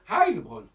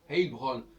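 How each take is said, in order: First: The name is said with the German vowel. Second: The name is said with a non-German vowel. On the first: Native Germans say the name this way. The speaker calls it right. "les Allemands, quand ils voient le nom, ils disent Heilbronn" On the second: Some people say the name this way. The speaker calls it wrong. "Il y a des gens qui disent, ils prononcent Heilbronn"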